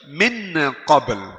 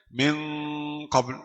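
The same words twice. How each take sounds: First: The n sound is pronounced clearly and fully. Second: The n sound is hidden and nasalized. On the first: The speaker calls it wrong. "Ini izhar. Ini yang tidak boleh" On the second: The speaker calls it right. "Tidak ada masalah"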